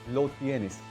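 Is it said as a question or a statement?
statement. It is said with a statement tune. The speaker states that the listener has it. "Now the statement, not the question"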